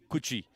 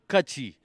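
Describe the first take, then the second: First: The first vowel sounds like 'u'. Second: The first vowel sounds like 'a'. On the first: The speaker calls it wrong. "not Kuchi" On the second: The speaker calls it right. "It's Kachi"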